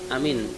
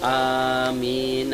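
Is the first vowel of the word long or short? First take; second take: short; long. First: The first vowel is short. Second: The first vowel is long. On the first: A trustworthy person. The speaker calls it wrong. "pendek amin" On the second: O God, answer the prayer. The speaker calls it right. "amin a-nya panjang"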